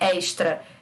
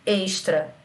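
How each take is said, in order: First: The first vowel is an open e. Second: The first vowel is a closed e. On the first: This is how São Paulo speakers say it. "o de vocês tem um som aberto" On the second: This is how speakers from another region say it. "as vogais que eu pronuncio têm um som fechado"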